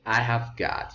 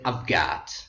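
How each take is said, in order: First: Every word is said separately in full. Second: The first two words merge into one syllable. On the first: The speaker calls it wrong. "you can't say when you speak" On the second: The speaker calls it right. "You say"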